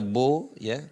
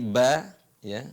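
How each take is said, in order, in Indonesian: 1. Suku kata pertama berat, dengan vokal seperti o. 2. Suku kata pertama tipis, dengan vokal a yang jelas. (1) "bukan dibaca bo ya" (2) "tapi ba ya"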